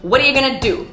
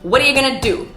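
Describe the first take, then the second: First: The words are linked and "going to" is reduced. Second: The words are linked and "going to" is reduced.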